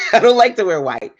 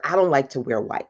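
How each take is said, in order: First: Higher pitch, laughter in the voice; amused confession. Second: Said in the usual way. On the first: Real, not acted. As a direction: repeat it through a giggle. Repeats confession after bursting into laugh.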